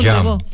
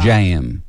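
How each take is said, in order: First: The vowel is clipped and short. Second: The vowel is drawn out and long. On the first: "Jam è più corta" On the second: "la pronuncia as southern"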